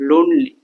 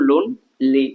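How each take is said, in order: First: Said in the usual way. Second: "লোনলি" said slowly as লোন, pause, লি; split into syllables. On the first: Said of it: "এটাকে ভাঙো লোনলি". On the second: Shown as a demonstration. Teacher asking learners to break the word, split into syllables. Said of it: "এটাকে ভাঙো".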